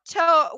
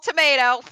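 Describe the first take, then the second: First: The word is pronounced with an Italian-sounding accent. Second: The word is pronounced with an ordinary English accent. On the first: The speaker calls it wrong. "my brain just kind of slips into that mode of talking" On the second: The speaker calls it right. "Nope, it's called tomato"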